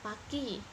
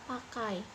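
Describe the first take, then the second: First: The ending is one simple vowel, i. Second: The ending is a two-vowel glide, ai. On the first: The speaker calls it wrong. "pakai diucapkan dalam satu suara saja" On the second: The speaker calls it right. "enggak pakai"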